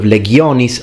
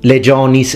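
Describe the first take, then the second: First: It uses the classical Latin pronunciation. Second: It uses the ecclesiastical Latin pronunciation. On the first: "like it should be" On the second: "legionis being ecclesiastical"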